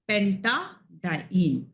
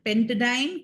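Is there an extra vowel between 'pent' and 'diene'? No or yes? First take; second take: yes; no. First: It is said as 'penta-diene' with a middle vowel. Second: It is said as 'pent-diene' with no middle vowel. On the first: The speaker calls it right. "call it" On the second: The speaker calls it wrong. "don't call it"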